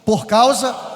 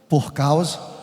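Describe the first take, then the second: First: It is read very loudly and strongly. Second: It is read at normal, softer volume.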